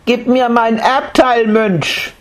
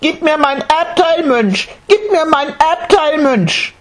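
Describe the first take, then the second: First: Put-on high child's voice, insistent; a small boy demanding his due. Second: Put-on very high shrill child's yell, repeated; child shouting. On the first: Boy demanding his inheritance from the monk. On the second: Boy shouting his demand at the monk. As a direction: scream it at him, tugging his robe.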